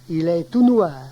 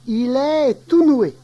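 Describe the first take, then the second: First: It ends in 'oi' with a final R. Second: It ends in 'oué' with no final R. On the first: This is the standard form. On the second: This is the local dialect form.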